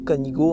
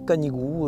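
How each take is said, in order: First: It is said the Occitan way. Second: It is said the common French way. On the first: This is the original regional form of the name. "c'est la prononciation euh, occitane" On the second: This is how most people say the name. "avec la déformation de la langue, euh, c'est devenu euh, Canigou"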